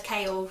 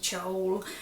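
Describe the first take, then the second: First: The name begins like the word chaos. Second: The name begins like the word chow. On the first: The speaker calls it right. "it was like the C H A O was meant to be like chaos" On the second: The speaker calls it wrong. "I pronounced it Chowl in my head"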